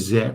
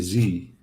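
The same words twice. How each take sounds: First: It is said the British way, as zed. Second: It is said the American way, as zee.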